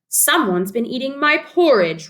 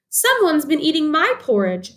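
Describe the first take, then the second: First: It is said in a loud roaring voice. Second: It is said in a high squeaky voice.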